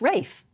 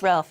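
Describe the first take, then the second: First: The name is said without an L sound. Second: The name is said with an L sound. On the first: "sometimes it's pronounced Rafe" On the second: "Yes, Ralph"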